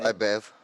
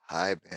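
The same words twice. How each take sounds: First: It is said in a natural voice. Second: It is said in a put-on voice.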